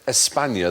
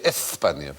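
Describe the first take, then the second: First: The s is a plain hissing s sound. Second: The s is lisped like a th sound. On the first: "They wouldn't say" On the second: "they'd say ... lisp it all the time"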